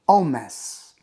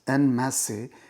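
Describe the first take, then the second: First: It is said with a French pronunciation. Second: It is said with an English pronunciation. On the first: "the French pronunciation is en masse" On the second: "normally pronounced as en masse"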